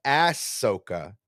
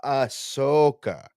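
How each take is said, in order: First: Ahsoka with a hard leading "ASS": ASS-so-ka; wrong ASS-soka for Ahsoka, flat A as in cat; Ahsoka mispronounced. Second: Ahsoka as uh-SOH-kuh, drawn out and higher; slow, careful uh-SO-ka for Ahsoka; Ahsoka corrected. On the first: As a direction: punch the first syllable of Ahsoka as "ass". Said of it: "It's not Ahsoka". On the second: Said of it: "it's Ahsoka". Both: Shown as a demonstration.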